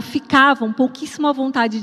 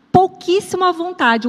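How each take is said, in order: First: Said in the usual way. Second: "pouquíssimo à vontade" lifted high, stress on "à"; stressed uncomfortable. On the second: Shown as a demonstration. Pastor stressing how uneasy the women felt, lifted high. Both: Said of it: "ou ficavam pouquíssimo à vontade".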